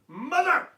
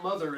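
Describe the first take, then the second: First: The word is said loudly and emphatically. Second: The word is said in a flat, plain way.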